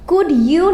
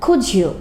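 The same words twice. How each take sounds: First: The d and y sounds stay separate. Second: The d and y merge into a j sound. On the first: "না বললে" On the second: "আমরা বললাম"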